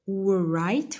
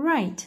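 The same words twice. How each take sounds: First: Right said wright with the W sounded; wrong pronunciation. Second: Right with no W sound; correct pronunciation. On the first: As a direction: voice a W before right. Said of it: "We don't say". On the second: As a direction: say right plainly, W silent. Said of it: "we say right". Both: Shown as a demonstration.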